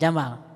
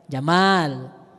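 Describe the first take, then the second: First: The 'a' vowel is kept short. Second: The 'a' vowel is drawn out long. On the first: The speaker calls it wrong. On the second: The speaker calls it right. "A-nya yang panjang ya"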